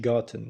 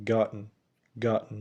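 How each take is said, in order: First: "gotten" as "GOT-ten" with a clear t; fully spelled-out "gotten"; released t. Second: "gotten" as "GOT-n" with a glottal stop; "gotten" without a released t; swallowed t. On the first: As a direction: release the t and sound the second vowel in "gotten". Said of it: "مش gotten". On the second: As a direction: catch the t of "gotten" in the throat, straight into n. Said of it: "آخر كلمة اتنطقت". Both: Shown as a demonstration.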